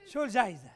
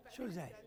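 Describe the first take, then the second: First: Said in the usual way. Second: Softer, lower, repeated to himself; quiet echo. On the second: Real, not acted. Lecturer echoing the prize question quietly to himself. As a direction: mutter it again under the breath.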